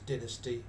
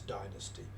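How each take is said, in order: First: It is said with a British English accent. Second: It is said with an American English accent. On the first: "in English English is dynasty" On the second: "American English is dynasty"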